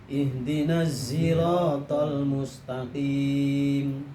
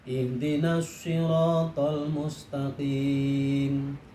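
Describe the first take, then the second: The two takes are said the same way.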